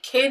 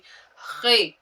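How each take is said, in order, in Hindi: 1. यह एक सामान्य साँस वाली k ध्वनि से शुरू होता है। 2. यह गले की खरखराती घर्षण वाली ध्वनि से शुरू होता है। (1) "हम ये नहीं कहेंगे" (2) "यहां से आवाज निकालेंगे"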